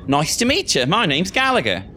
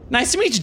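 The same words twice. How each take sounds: First: Higher-pitched British student introducing himself; British accent. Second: Put-on high southern-accented greeting; British character slipping into a southern accent; accidental southern accent. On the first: Acted. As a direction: greet her in a British accent. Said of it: "where's my British accent at". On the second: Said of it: "I did a southern accent".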